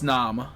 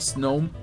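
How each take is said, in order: First: The vowel is short, rhyming with nom. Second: The vowel is long, rhyming with gnome. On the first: The speaker calls it right. "I think it's snom, like nom" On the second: The speaker calls it wrong. "I don't think it's pronounced like gnome"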